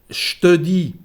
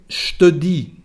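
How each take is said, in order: Both takes have the same delivery.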